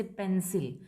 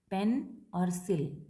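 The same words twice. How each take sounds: First: Said in the usual way. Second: "पेन", then "सिल", each a slow separate syllable; split into syllables. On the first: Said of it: "दो syllables होते हैं, जैसे". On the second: Shown as a demonstration. Teacher showing two syllables, "पेन और सिल" slowly separated. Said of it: "जिसमें कि दो syllables होते हैं".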